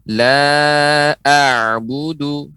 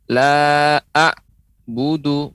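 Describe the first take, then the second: First: Slow chanted "La a'budu", the ain sounding through; no stop on the ain in "a'budu"; long "La", then a continuous throaty "a'" into "budu"; unbroken ain. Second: Slow "La a'budu" broken after the "a'"; chanted wrong take, glottal break in "a'budu"; cut-off ain. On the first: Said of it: "tidak boleh berhenti". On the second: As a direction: stop dead on "a'", like an alif, before "budu". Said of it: "berarti terputus". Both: Shown as a demonstration.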